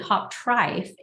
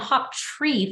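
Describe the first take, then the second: First: The name is pronounced the German way. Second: The name is pronounced the American way. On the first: "if you were to to pronounce it the German way" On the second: "they Americanized it"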